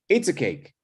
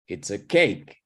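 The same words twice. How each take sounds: First: The stress is not on the word cake. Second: The stress is on the word cake. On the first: The speaker calls it wrong. "You wouldn't say something like" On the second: The speaker calls it right. "You need to emphasize the noun"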